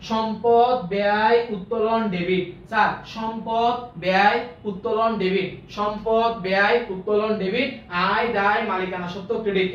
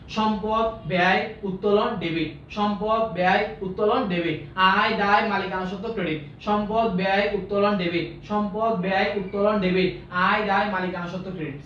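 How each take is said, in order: First: Slow, emphatic chant, word by word; drawn-out recitation with punched words; call-out drill. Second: Measured drill, toned down from a shout; small careful chunks. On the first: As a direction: call it out for the class to repeat. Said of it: "এমন ভাবে চিল্লায় বলবেন". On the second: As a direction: recite in short separate pieces, pausing between terms. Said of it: "ছোট ছোট করে বলবো". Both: Shown as a demonstration.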